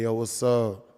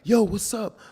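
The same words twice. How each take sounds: First: The voice is low and deep. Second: The voice is high-pitched. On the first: The speaker calls it right. "like this" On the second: The speaker calls it wrong. "in my high pitched voice"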